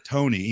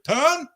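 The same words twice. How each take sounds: First: Said in the usual way. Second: "Tone" shouted high and loud, without the final E; cut-short name. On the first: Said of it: "before I could even get the E out". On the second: Retold or imitated. Imitating the bassist cutting in on a fan's name, "Tone" shouted with no E. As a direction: jump in with "Tone", the ending chopped off. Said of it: "responded before I could even get the E out with".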